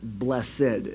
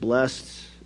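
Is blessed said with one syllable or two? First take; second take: two; one. First: It is said as two syllables. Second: It is said as one syllable. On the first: "the old way to say it" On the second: "Some people pronounce it"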